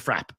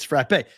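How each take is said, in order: First: The word is said with the New England pronunciation. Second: The word is said with the standard pronunciation. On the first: "everybody from New England calls it a frap" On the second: "sending me the pronunciation guide"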